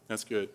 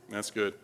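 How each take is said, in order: Both takes have the same delivery.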